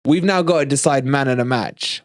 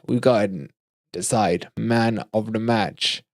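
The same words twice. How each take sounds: First: Said in the usual way. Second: Slower and softer, spacing out "man of the match"; slow, deliberate repeat. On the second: Real, not acted. Host announcing the vote to viewers, slow and deliberate. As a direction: spell out "man of the match" slowly and quietly.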